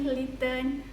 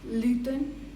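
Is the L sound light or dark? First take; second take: light; dark. First: The L is light, made at the front. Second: The L is dark, made at the back. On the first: "a light L is at the front" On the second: "for the dark L, ... at the back"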